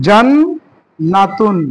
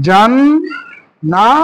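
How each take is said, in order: First: "জান্নাতুন" with the doubled ন held, every syllable stretched, falling end; slow careful reading. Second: "জান্নাতুন" stretched very slowly with the ন doubled and the voice rising at the end; slow reading, rising. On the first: Teacher modelling "জান্নাতুন" for students, very slow. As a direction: spell out "জান্নাতুন" very slowly, leaning on the নn. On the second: Teacher repeating "জান্নাতুন" for students, slow and rising. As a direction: draw out "জান্নাতুন" slowly and lift the last syllable. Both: Shown as a demonstration. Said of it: "তাহলে কি হলো?".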